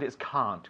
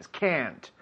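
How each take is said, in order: First: It is said in an English accent. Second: It is said in an American accent. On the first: "With an English accent" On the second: "With an American accent, it's slightly different"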